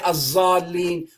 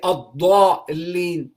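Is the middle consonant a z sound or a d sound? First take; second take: z sound; d sound. First: The middle consonant is a z sound. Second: The middle consonant is a d sound. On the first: The speaker calls it wrong. "We don't say azalin" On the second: The speaker calls it right. "We say adalin"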